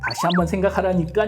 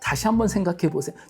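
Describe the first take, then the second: First: It is said in a sharper, irritated tone. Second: It is said in a calm, polite tone.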